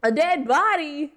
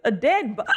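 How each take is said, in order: First: Shocked, high and slow; surprised. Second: Word broken by a hiccup. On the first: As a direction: stretch it out in disbelief. Rereads line after hiccup. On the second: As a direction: hiccup cuts it off. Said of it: "I have the hiccups". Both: Real, not acted.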